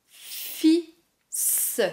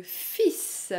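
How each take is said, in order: First: "Fils" split as "fi... sss", no L, S sounded; syllable by syllable. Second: Said in the usual way. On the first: Shown as a demonstration. Teacher showing the silent L, syllable by syllable. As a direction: say "Fils" as fi, a pause, then a separate s. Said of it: "Le L est silencieux". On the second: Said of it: "mais il y a aussi le".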